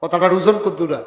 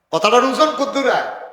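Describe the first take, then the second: First: Said in the usual way. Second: Raised question. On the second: Shown as a demonstration. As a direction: ask it again higher, pressing the crowd.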